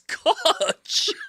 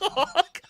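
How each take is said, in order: First: The name ends in a ch sound. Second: The name ends in a k sound. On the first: The speaker calls it right. "It's Koch" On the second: The speaker calls it wrong. "It's not Cock"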